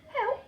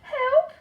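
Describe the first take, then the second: First: It is said quietly. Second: It is said loudly.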